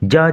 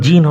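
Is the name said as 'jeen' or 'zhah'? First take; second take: zhah; jeen. First: The name is said as 'zhah'. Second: The name is said as 'jeen'. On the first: The speaker calls it right. "ফরাসি ভাষায় এর উচ্চারণ যা" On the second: The speaker calls it wrong. "উচ্চারণ জিন হবে না"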